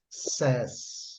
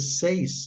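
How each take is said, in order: First: The vowel is a short plain 'e'. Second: The vowel glides like 'ay' in 'day'. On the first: The speaker calls it right. "é says, says" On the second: The speaker calls it wrong. "ao invés de ser seis"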